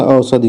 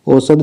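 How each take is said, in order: First: औषधि with a final short i; correct form. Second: औषध ending on the consonant; wrong form. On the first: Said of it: "औषध नहीं होता". (औषधि, अंत में इ के साथ) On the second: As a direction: say औषध with no final i, pitch lifted. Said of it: "औषधि होता है". (औषध, अंत में इ के बिना) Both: Shown as a demonstration.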